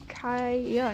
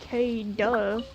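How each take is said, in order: First: The middle consonant is a Y sound. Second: The middle consonant is a D sound. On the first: The speaker calls it right. "It's Kaya" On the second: The speaker calls it wrong. "not K-duh"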